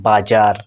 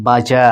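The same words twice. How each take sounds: First: "বাজার" with a sounded final r; American pronunciation. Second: "বাজা" ending on an open vowel, no r; British pronunciation. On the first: Teacher demonstrates American style to learners, final r pronounced. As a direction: keep the r at the end of "বাজার". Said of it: "American স্টাইলে তবুও কিন্তু উচ্চারিত হবে". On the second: Teacher demonstrates British style to learners, final r silent. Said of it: "এই আরটাকে বাদ দিতে হলো". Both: Shown as a demonstration.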